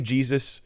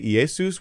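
First: The name is said in its usual English form. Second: The name is said in its Greek form. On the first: "You say Jesus" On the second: "which is the Greek"

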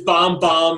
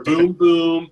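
First: The syllable has an 'ah' vowel closed by m. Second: The syllable has an 'oo' vowel closed by m. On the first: The speaker calls it right. "It is bomb, bomb" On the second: The speaker calls it wrong. "or boom, boom"

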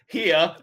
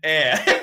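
First: The word has an h and an ee vowel. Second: The word starts with a vowel, no h. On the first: The speaker calls it wrong. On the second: The speaker calls it right. "and air. Finally"

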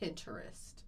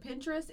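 First: The first part "Pinter" is said out in full. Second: The first part is said quickly and shortened. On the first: "He's very into the Pinter. He makes sure to say all of it" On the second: "And I said Pinterest"

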